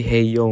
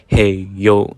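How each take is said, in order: First: Said in the usual way. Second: A mild mock yell at the thief; retold yell. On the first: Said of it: "I just say". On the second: Yelling at the thief stealing cans, mildly mock. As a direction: call out with a touch of force. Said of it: "I just yell this".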